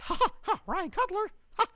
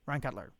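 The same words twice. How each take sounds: First: Very high squeaky cartoon mouse with staccato laughs; Mickey Mouse. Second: Said in the usual way. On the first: Streamer saying a viewer's name on request, cartoon mouse voice. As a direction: pitch it way up into a cartoon falsetto. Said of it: "In Mickey Mouse voice". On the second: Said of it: "Please say it".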